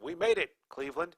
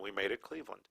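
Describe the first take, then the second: First: There is a pause before Cleveland. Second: It runs on with no pause before Cleveland.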